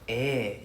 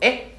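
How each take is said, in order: First: It sounds casual and agreeing. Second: It sounds shocked and surprised. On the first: The speaker agrees. "eh is like yes it's another way to say hi" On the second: The speaker is surprised. "eh is like shock"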